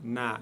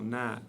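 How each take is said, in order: Both takes have the same delivery.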